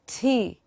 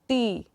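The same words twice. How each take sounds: First: The T is released with a strong puff of air. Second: The T is released with no puff of air. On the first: The speaker calls it right. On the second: The speaker calls it wrong.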